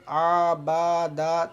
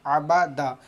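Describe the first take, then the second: First: The vowels are drawn out and lengthened. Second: The vowels are short and read quickly. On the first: The speaker calls it wrong. "ऐसे पढ़ेंगे आ बा दा तो ये गलत हो जाएगा" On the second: The speaker calls it right. "जल्दी पढ़ेंगे, खींचकर नहीं पढ़ेंगे"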